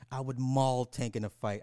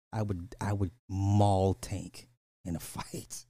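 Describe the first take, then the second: First: Said in the usual way. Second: Slow boast that breaks into a laugh. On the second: Real, not acted. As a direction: say it slowly and crack up at the end.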